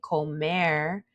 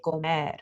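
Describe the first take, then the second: First: "comer" ending in an American R, like "co-mair"; "comer" with an untapped, anglicized final R; English R ending. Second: "comer" with final R tapped, near "comed"; "comer" in Spanish, final R lightly tapped; soft D-like R. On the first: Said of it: "Instead of saying comer". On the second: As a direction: end "comer" on a soft D-like tap. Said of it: "say comer". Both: Shown as a demonstration.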